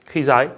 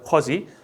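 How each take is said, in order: First: Both vowels are diphthongs, kwai and zai. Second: The middle consonant is a voiced z sound.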